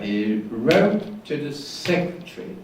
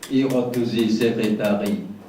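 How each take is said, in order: First: Two syllables are stressed and the others are weak. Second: Every syllable has the same length and stress. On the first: "two stresses are important" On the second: "The same length and same stress uh, given to each syllable"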